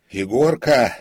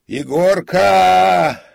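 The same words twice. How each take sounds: First: Loud, high call for a servant; shout. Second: Very loud, high, long-held call; drawn-out shout. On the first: Frightened comic calls his servant in the empty theatre, shouting. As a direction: yell out the name into the dark. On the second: Comic calls again for the servant, long echoing shout. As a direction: holler the name, stretching the end. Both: A narrator's reading. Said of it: "крикнул он".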